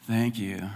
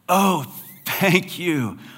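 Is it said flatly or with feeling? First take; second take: flatly; with feeling. First: It is said flatly, without emotion. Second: It is said warmly, with real feeling.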